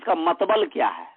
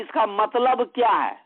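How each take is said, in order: First: The word is said with b before l: matbal. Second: The word is said with l before b: matlab.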